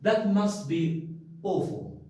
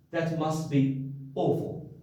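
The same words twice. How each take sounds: First: Sympathetic. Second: Said in the usual way. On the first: Shown as a demonstration. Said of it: "Something which is awful".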